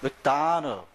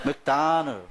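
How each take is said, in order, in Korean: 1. 한 음절에만 강세가 있고 나머지는 약하게 줄여 말합니다. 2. 한 음절에만 강세가 있고 나머지는 약하게 줄여 말합니다.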